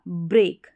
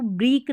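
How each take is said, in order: First: break with a clear ay vowel, brek; break read right, like brake; correct ay sound. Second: break with the vowel stretched to ee, brik; break misread as breek; wrong long ee. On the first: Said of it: "इसको पढ़ा जाएगा break". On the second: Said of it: "इसको break नहीं पढ़ेंगे". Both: Shown as a demonstration.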